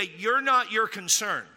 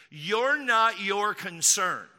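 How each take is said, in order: First: Said in the usual way. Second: "You're not your concern" drawn out, word by word; slow emphatic repeat. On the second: Shown as a demonstration. Repeats answer slowly for emphasis.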